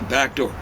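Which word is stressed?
door. The stress falls on the word door. The speaker calls it right. "Say back door"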